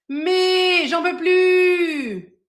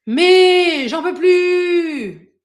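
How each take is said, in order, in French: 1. La voix est plus forte, sans air. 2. La voix est soufflée, avec de l'air. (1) "c'est plus fort" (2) "c'est pas très agréable ... dans la première, il y a de l'air"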